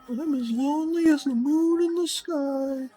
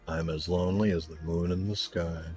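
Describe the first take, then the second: First: It is said in a high-pitched put-on voice. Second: It is said in a normal speaking voice.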